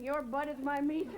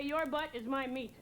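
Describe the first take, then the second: First: Slow, lightly put-on mom voice, stressing meat; a hint of an angry mom, leaning on meat; mom's phrase, slowed and pointed; mom's threat repeated. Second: Slow, measured threat; lightly voiced angry mom; mom's threat. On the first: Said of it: "She would in front of people". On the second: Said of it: "she would say".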